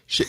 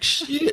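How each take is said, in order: First: It is said short and quick, without a drawl. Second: It is drawn out in a southern accent. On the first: The speaker calls it right. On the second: The speaker calls it wrong.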